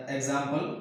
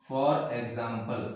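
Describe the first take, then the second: First: Said in the usual way. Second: For example stretched very slowly; for example, slowly and lower; drawn-out dictation. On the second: Shown as a demonstration. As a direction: spell it out slowly for the class. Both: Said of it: "teacher repeats the term".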